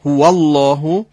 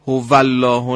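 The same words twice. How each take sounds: First: هو الله with rounded lips opening, slowly. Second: هو الله with a Persian v-like و. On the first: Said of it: "حاصل جمع و باز شدن لب هاست". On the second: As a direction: demo the wrong v in هو. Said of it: "نه هو". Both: Shown as a demonstration.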